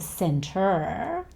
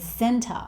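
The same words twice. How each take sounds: First: The word ends with an R sound. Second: The word ends with a schwa vowel. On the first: "Instead of center" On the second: "he replaces the er sound with the schwa sound"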